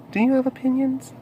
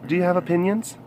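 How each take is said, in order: First: Soft, high cooing question. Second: Said in the usual way. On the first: Real, not acted. Asking a pet for opinions, high baby talk. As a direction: coo it up high.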